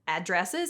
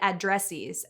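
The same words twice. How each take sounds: First: The ending sounds like iz. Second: The ending sounds like eez. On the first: The speaker calls it right. "They're addresses" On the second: The speaker calls it wrong. "The plural of address isn't addresses"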